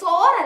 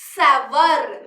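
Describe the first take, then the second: First: The vowel sounds like the word sore. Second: The vowel sounds like ow in power. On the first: The speaker calls it wrong. "സോർ അല്ല" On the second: The speaker calls it right. "സവർ എന്നാ pronounce ചെയ്യാ"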